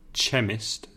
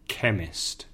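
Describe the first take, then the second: First: The word begins with a 'ch' sound. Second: The word begins with a 'k' sound. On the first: The speaker calls it wrong. "se deletrea Chemist, pero no se dice chemist" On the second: The speaker calls it right. "se dice chemist"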